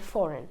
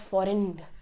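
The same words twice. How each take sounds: First: The G sound is silent. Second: The G sound is pronounced. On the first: The speaker calls it right. "you cannot really hear the G" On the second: The speaker calls it wrong. "it's not"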